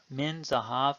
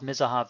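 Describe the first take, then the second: First: The n is clearly pronounced before the z. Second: The n is dropped into a doubled z. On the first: "Say min zahav" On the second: "Now speed up"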